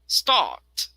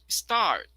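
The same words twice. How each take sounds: First: The r sound after the vowel is dropped. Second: The r sound after the vowel is pronounced.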